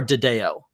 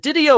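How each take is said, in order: First: Didio said di-DAY-oh, as a question; di-DAY-oh pronunciation. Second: Didio said DID-ee-oh; DID-ee-oh pronunciation. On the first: Host offering the other way to say it, di-DAY-oh. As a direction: say Didio with a stressed "day" in the middle. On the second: Host asking cohosts which way the name goes, DID-ee-oh. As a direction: say Didio with an "ee" in the middle. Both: Shown as a demonstration. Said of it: "I've heard it both ways".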